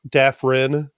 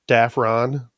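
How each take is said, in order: First: The last syllable has an 'i' vowel. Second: The last syllable has an 'o' vowel. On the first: This is the way the name is meant to be said. "supposed to be pronounced Dafrin" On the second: This is the way most people say the name. "everybody says Dafron"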